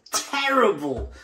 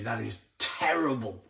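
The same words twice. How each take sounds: First: "terrible" said higher and slowly stretched; drawn-out terrible. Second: Said in the usual way. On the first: Real, not acted. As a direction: lean hard into "terrible", dragging it out.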